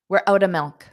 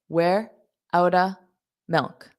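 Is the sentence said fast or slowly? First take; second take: fast; slowly. First: The sentence is said quickly. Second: The sentence is said slowly. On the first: "Now I will say it fast" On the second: "So that's slow"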